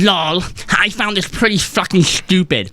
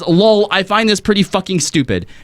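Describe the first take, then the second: First: It is read in an exaggerated put-on voice. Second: It is read in a normal speaking voice.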